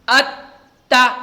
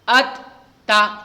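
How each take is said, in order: First: The syllables are said with firm, forceful emphasis. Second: The syllables are said in a plain, normal way. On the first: "सख्ती से कैसे पढ़ेंगे" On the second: "लेकिन ये नॉर्मल हुआ"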